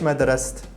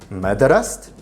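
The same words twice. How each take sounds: First: Ma is stressed and the pitch does not rise. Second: Ma is unstressed and the pitch rises. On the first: It asks why the studying did not happen. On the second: It insists that the studying did happen. "An unstressed ma with rising intonation"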